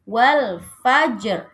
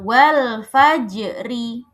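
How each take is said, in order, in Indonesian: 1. Frasa berakhir pada r, tanpa vokal. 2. Huruf r terakhir diikuti vokal i pendek. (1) "karena berhenti jadi" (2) "Yang aslinya"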